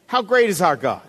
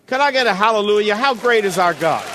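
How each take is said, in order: First: Said in the usual way. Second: Louder, fast preacher's call-out; rallying call. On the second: Acted. Preacher calling the congregation to answer, loud. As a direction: rouse the congregation to answer back.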